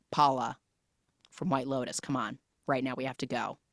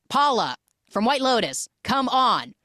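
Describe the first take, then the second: First: Low-key, softer retold plea; muted urging. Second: High, exasperated retold plea; pissed off. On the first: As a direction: quietly urge her to leave, pausing after the name. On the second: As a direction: imitate him losing patience, pitch jumping up. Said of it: "He's, like, so pissed".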